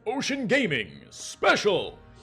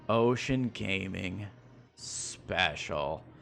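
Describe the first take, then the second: First: It is said in an exaggerated announcer voice. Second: It is said in a plain, normal voice.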